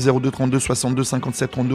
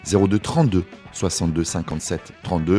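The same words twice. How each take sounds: First: The number is said fast. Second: The number is said slowly.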